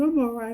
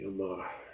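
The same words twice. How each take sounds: First: The voice sounds bright and cheerful. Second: The voice sounds weak and strained. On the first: The person is hiding how bad things are. "she would do her happy voice" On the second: The person is really suffering. "Her voice is weak. She could barely talk"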